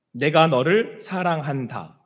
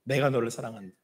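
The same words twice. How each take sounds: First: Slow, tender divine voice; God speaking tenderly. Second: Softer, hushed echo of the line; soft repeat. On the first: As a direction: let each word land slowly and gently. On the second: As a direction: say it again as a quiet whisper of love. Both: Acted. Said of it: "이렇게 말씀하시는 거예요".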